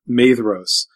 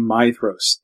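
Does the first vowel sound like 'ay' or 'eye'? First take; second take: ay; eye. First: The first vowel sounds like the letter A. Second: The first vowel sounds like the word eye. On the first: The speaker calls it wrong. "He continually calls Feanor's eldest son Maedhros" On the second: The speaker calls it right. "It should be Maedhros, A-E in Elvish is pronounced, it's pronounced I"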